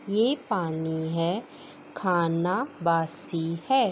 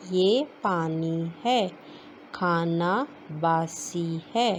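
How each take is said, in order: First: Said in the usual way. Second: Slow reading. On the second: Shown as a demonstration. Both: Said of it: "جملے پڑھتے ہیں".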